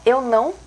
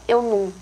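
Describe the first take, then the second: First: The word is said fully as nasal 'não'. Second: The word is reduced to a short 'num'. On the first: "Em vez de falar eu não" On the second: "a gente fala eu não"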